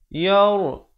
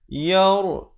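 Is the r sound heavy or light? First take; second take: heavy; heavy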